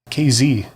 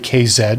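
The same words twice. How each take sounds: First: The last letter is pronounced 'zee'. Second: The last letter is pronounced 'zed'. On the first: This is the American way of saying it. "most people that watch my stuff are in the U S, so they say K Z" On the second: This is the Canadian way of saying it. "I do say K Z because I'm in Canada"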